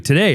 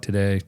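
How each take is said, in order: First: It is said forcefully, with urgency. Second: It is said flatly and casually.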